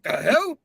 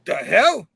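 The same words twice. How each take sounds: First: Higher, rising, startled; a hammed-up startled question; a character suddenly confused; mock surprise. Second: Said in the usual way. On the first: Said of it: "he's like". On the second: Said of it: "Then he starts, he's like".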